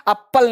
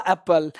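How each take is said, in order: First: एप्पल as ap-pal, both Ps sounded; wrong doubled P. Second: एप्पल with one light P, "apl"; correct single P. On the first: Teacher rejects the mistake, एप्पल with doubled P. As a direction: hold the P in एप्पल, full second vowel. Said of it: "एप्पल नहीं". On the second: Teacher answers own question, एप्पल with single P. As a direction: let एप्पल end in a short "pl". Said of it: "तो क्या हो जाएगा". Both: Shown as a demonstration.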